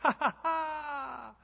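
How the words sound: The laugh sounds happy and joyful.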